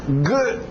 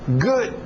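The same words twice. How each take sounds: Both takes have the same delivery.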